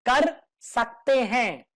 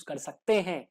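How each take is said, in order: First: Slow, deliberate stress on "कर सकते हैं"; emphatic repeat. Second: Said in the usual way. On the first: Shown as a demonstration. Teacher stressing it is optional, slow emphatic "कर सकते हैं". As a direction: spell out "कर सकते हैं" word by word, slowly.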